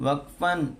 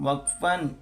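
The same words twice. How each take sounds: No difference in how they are said.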